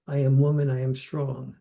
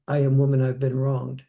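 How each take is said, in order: First: Firm, confident chant of strength; a touch of proud marching chant; proud slogan. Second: Mock grievance, leaning on am; a hint of wounded protest; aggrieved slogan. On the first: Retold or imitated. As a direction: quote it like a proud rallying slogan. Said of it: "as I saw feminism go from". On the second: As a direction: quote it as a louder aggrieved complaint.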